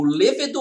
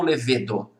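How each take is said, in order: First: "levedo" stressed on first syllable, LE-ve-do; tônica na primeira sílaba. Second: "levedo" stressed on middle syllable, le-VE-do; tônica na penúltima. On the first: ("levedo" com a tônica no LE inicial) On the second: ("levedo" com a tônica no VE) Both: Shown as a demonstration. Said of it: "É o levedo".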